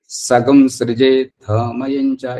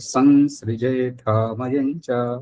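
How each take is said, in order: First: The nasal is said as a g sound: sagam. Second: The nasal is said plainly as sam. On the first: The speaker calls it wrong. "वो उच्चारण दोष है" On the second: The speaker calls it right. "तो इसलिए यहाँ पर"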